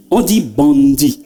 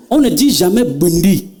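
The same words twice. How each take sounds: First: Bandit said the standard French way. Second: Bondi said with an o sound; bondi, the Banda way. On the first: Son correcting his mother, standard bandit slowly. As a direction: correct bandit clearly, a touch slower. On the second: Son correcting his mother, saying bondi the Banda way. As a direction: say bondi, not bandit. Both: Shown as a demonstration.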